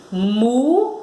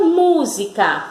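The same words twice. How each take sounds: First: "Música" in separate syllables, weight on mú; stressed syllable demo. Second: Said in the usual way. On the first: Shown as a demonstration. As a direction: say "Música" as MÚ, pause, si, pause, ca. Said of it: "pronuncia a sílaba mu com mais força".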